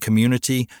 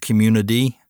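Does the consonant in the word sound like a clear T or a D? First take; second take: clear T; D. First: The middle consonant is a crisp T sound. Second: The middle consonant sounds like a D. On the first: The speaker calls it right. "I have really had to work hard to say community" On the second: The speaker calls it wrong. "and not community. It's very easy as a Southerner to change all the T's to D's"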